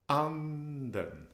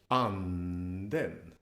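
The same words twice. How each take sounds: First: The pitch starts high and falls. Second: The pitch starts low and rises. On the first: It means the duck. "an acute pitch accent where the pitch starts high and falls down" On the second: It means the spirit. "When you're starting low and you go up in pitch, it's called a, a grave pitch accent"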